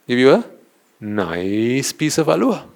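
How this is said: The word nice is stretched out and strongly stressed. The sweet must be really delicious. The speaker calls it right. "Remember how they stressed on the word nice?"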